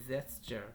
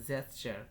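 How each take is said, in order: Both takes have the same delivery.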